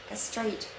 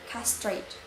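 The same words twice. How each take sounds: First: The stress is on the second syllable. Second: The stress is on the first syllable. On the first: "And in British, the stress is in the second syllable" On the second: "For American English, the stress is in the first syllable"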